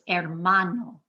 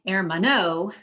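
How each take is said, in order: First: The stress falls on the second-to-last syllable. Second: The stress falls off the second-to-last syllable. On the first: The speaker calls it right. "It's hermano" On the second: The speaker calls it wrong. "if you say hermano"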